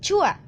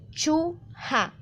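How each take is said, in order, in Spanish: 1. No hay sonido h; las dos vocales se unen. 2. Se oye un sonido h entre las dos sílabas. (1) "Desaparece totalmente" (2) "se debería pronunciar la palabra de esta manera"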